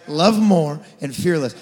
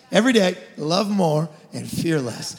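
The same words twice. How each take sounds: First: "Love more and fear less" louder and slower, each word leaned on; emphatic slogan. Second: Said in the usual way. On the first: Shown as a demonstration. Pastor repeating the mission to the church, emphatic and slow. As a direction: drive the motto home.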